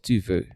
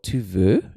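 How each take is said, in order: First: The pitch falls at the end. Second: The pitch rises at the end. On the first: It states that you want something. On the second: It asks whether you want something.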